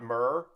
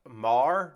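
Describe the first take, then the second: First: The vowel sounds like the one in her. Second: The vowel sounds like the one in car. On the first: The speaker calls it wrong. "not Mer" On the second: The speaker calls it right. "It's like Mar"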